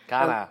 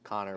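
First: The name is said with the final r dropped. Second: The name is said with the final r sounded.

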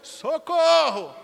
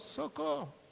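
First: It is shouted loudly. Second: It is said weakly and quietly.

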